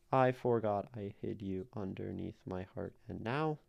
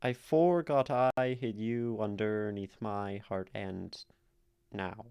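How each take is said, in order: First: "I forgot I hid you underneath my heart and now" run through evenly; "I forgot I hid you underneath my heart and now" as one unbroken counted line; even syllable-counting read. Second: "I forgot I hid you underneath my heart, and now" in slow, stretched alternate beats; "I forgot I hid you underneath my heart, and now" read slowly as strict da-DUM; forced iambic reading. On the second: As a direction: plod through "I forgot I hid you underneath my heart, and now", leaning on every second syllable. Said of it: "if we try to read it iambically". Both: Shown as a demonstration.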